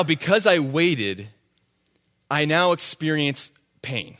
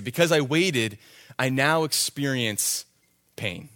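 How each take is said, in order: First: Said in the usual way. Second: Slowed solemn repeat with hushed "pain"; slow emphatic repeat. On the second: Shown as a demonstration. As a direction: let it land, hush on "pain". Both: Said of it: "repeats the point".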